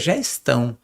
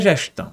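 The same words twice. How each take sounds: First: It is said the São Paulo way. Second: It is said with another regional pronunciation. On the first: This is how the name is said locally. "aqui em São Paulo você não sabe nem pronunciar o nome, porque aqui é gestão" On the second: This is how the owner intended the name. "não é gestão"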